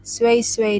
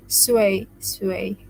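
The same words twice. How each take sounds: First: "Sway, sway" said as Arabic shway, shway; "Sway, sway" spoken as Arabic for slowly; Arabic word. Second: "Sway, sway" repeated through a laugh. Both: Shown as a demonstration. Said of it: "they said in Arabic".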